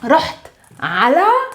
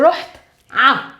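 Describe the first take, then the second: First: The preposition is said in full as two syllables. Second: The preposition is cut to a single short vowel. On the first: "we can use either ala the way it is" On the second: "we can say only a instead of ala"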